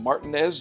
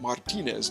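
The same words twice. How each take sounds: First: Martinez is said with an anglicized English pronunciation. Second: Martinez is said with a Spanish-style pronunciation. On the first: This is how the locals say the town's name. "I grew up, after all, in Martinez, Georgia" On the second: This is not how the locals say the town's name. "not Martinez, Georgia"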